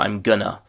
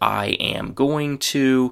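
First: Going to blends into a reduced gonna. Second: Every word is said fully and separately. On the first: "we're getting into chewing gum territory here" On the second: "the very common phrase"

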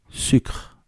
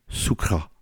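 First: The word is said with a French accent. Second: The word is said with an American accent.

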